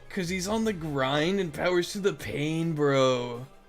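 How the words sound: It is read in a put-on character voice. The speaker calls it right.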